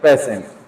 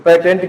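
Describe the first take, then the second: First: The middle consonant is an 'sh' sound. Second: The middle consonant is a 't' sound. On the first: The speaker calls it right. "इसको क्या बोलेंगे हम, पेशेंट" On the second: The speaker calls it wrong. "बहुत से भाई अपन पेटेंट भी बोल देते हैं इसको, तो पेटेंट क्या है, रोंग है"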